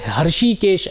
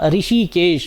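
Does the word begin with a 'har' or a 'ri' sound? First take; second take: har; ri. First: The word begins with a 'har' sound. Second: The word begins with a 'ri' sound. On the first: The speaker calls it wrong. "कई लोग हर्षिकेश ऐसा उच्चारण करते हो, हर्षिकेश नहीं होता है" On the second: The speaker calls it right.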